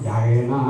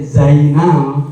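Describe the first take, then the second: First: The word begins with a j sound. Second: The word begins with a z sound. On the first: The speaker calls it wrong. "orang Sunda mah jaina" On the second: The speaker calls it right. "harusnya teh zaina"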